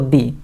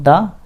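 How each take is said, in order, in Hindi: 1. स्वर एक लंबी 'ee' ध्वनि है। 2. स्वर एक छोटी, सामान्य 'uh' ध्वनि है। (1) "या तो दी" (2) "द का दो तरीके से उच्चारण किया जाता है, या तो द"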